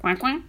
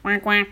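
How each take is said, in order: First: Questioning quack. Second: Short quacked answer; duck quack. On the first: Duck asking the returning animals, questioning quack. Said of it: "demanda le canard". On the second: Duck answering the farmer, resigned little quack. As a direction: quack twice in reply, at an even pitch. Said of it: "le canard répondait". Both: A narrator's reading.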